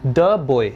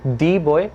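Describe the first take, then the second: First: Put-on the said "thuh" before boy; short schwa the, "thuh boy". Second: Put-on the said "thee" before boy; long ee the, the wrong way. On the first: Teacher models "thuh boy" for students. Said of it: "the boy बोलेंगे". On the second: Teacher shows the wrong "thee boy". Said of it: "the boy नहीं बोलेंगे". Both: Shown as a demonstration.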